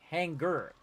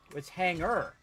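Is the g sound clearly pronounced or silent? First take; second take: pronounced; silent. First: The g sound is clearly pronounced. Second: The g sound is silent. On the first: This is how Southern speakers say it. The speaker calls it wrong. "you don't accentuate the G" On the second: This is how most other speakers say it. The speaker calls it right. "The G is silent"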